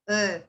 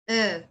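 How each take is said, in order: Both takes have the same delivery.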